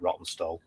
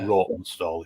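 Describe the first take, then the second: First: It is said in a plain, local-sounding way. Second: It is said in a refined, posh-sounding way. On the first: This is how local people say it. "We call it Rottenstall" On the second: This is how upper-class people say it. "Rawtenstall if you're really posh"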